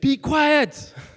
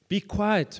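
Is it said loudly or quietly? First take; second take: loudly; quietly. First: It is yelled loudly, as the crowd yelled. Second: It is read quietly, in a plain voice.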